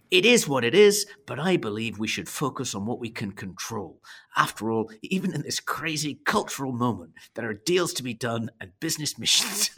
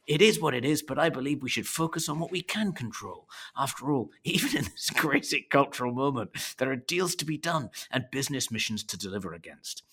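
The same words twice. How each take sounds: First: Mock Scottish accent; hamming up a Scottish sales pitch. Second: Mock Scottish accent, holding back laughter; restarting the Scottish voice, half laughing. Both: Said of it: "Thor's Scottish accent".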